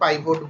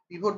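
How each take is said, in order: First: The first vowel sounds like 'eye'. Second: The first vowel sounds like 'ih'. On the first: "পিভট বলুন বা পাইভট বলুন, এক একজন এক এক রকম উচ্চারণ করে" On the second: "পিভট বলুন বা পাইভট বলুন, এক একজন এক এক রকম উচ্চারণ করে"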